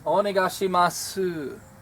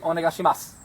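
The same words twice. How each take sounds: First: The final vowel is faintly breathed, wispy. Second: The final vowel is dropped completely. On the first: The speaker calls it right. "it's not completely dropped. ... It's very subtle. ... It's very wispy" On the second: The speaker calls it wrong. "We wouldn't just say"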